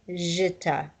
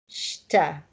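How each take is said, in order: First: It begins with a j sound. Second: It begins with an sh sound. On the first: The speaker calls it wrong. "You're not going to say jita" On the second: The speaker calls it right. "you're going to say sh"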